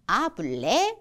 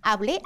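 First: It is said slowly, without clear stress. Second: It is said quickly with a clear stress.

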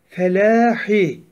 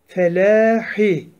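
The two takes are said the same way.

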